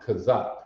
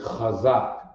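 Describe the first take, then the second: First: It begins with a plain k sound. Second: It begins with a guttural kh sound. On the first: The speaker calls it wrong. "but you hear people pronounce it kazak" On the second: The speaker calls it right. "but it's really chazak"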